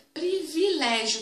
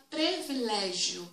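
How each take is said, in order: First: Privilégio said slowly with "pri" at the start; privilégio, careful "pri-vi"; privilégio, each syllable clear, "pri-vi-lé-gio"; correct privilégio. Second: Privilégio said as "pre-vilégio"; privilégio with "pre" in place of "pri"; privilégio, first vowel turned to E, "pre-vi"; mispronounced privilégio. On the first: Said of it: "De acordo com a ortoépia". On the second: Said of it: "Tem gente que fala privilégio". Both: Shown as a demonstration.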